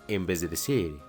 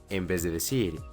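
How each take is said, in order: Both takes have the same delivery.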